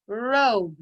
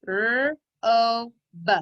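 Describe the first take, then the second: First: Said in the usual way. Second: "R-O-B" as sounds rr, long o, buh; tapped-out sounds. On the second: Shown as a demonstration. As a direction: tap out "R-O-B" sound by sound, not letter names. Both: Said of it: "Tap it out".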